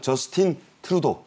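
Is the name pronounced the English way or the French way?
English. The name is pronounced the English way. "영어로는"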